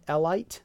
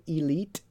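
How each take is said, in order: First: Elite said eh-lite, rhyming with kite; wrong elite. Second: Elite said ih-leet, long ee; right elite. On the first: Teacher mocks the spelled-out eh-lite. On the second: Teacher gives the correct ih-leet. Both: Shown as a demonstration. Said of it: "it's not elite".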